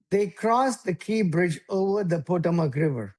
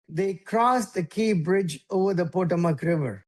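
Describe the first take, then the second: First: Slow, every word of They crossed the Key Bridge spelled out; slow and over enunciating. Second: Each word of They crossed the Key Bridge separately clear; evenly spaced words in They crossed the Key Bridge; over enunciating. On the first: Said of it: "let me say it slowly". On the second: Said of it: "can you hear every word". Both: Shown as a demonstration.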